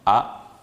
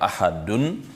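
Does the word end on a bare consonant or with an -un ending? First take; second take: bare consonant; -un ending. First: The word ends abruptly on the final consonant. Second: The word ends with an added -un sound. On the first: "on va dire donc phonétiquement ahad" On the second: "au lieu de ahadun"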